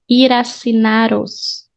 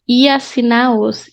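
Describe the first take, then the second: First: The R sound links into the next word. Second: The R sounds are dropped between words. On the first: "You can link this R with this A to consonant vowel" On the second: "without the R's"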